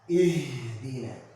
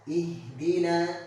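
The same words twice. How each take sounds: First: The h is breathed out with exaggerated force. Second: The h is breathed out lightly and moderately. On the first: The speaker calls it wrong. "tidak boleh berlebihan ketika mengucapkan H ini" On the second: The speaker calls it right. "biasa saja"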